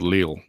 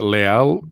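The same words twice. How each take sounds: First: The name is said with an English pronunciation. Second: The name is said with a non-English pronunciation. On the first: "or do you say in English pronunciation" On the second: "Is it Leal"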